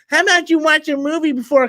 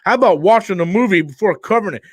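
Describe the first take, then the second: First: It is said in a mocking troll voice. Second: It is read in his normal voice.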